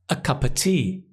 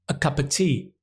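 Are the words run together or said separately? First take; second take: run together; run together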